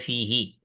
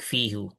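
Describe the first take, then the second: First: The word ends with an i sound. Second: The word ends with a u sound. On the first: The speaker calls it right. "They say fihi" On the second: The speaker calls it wrong. "Arabs don't like fihu"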